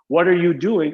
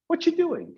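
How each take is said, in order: First: It is said slowly with every word full. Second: It is said fast with words run together.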